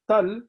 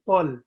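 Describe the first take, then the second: First: The T is said light and thin. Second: The T is said heavy and thick. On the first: The speaker calls it wrong. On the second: The speaker calls it right.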